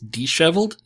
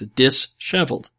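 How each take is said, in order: First: The word is split after 'di', then 'sheveled'. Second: The word is split after 'dis', then 'heveled'. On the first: The speaker calls it right. "except D is spelled D-I" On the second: The speaker calls it wrong. "I've just always assumed it was dis as the prefix"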